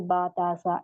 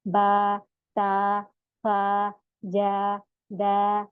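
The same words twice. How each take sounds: First: बा, ता, सा cut short without stretching; rushed short syllables; clipped too short. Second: बा, ता, फा, जा, दा each held for two counts; long vowel drill; stretched syllables. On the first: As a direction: say them too quick, the wrong way. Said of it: "ऐसे नहीं पढ़ना". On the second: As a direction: draw each syllable out slowly. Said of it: "दो दो हरकत इसको खींचना है". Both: Shown as a demonstration.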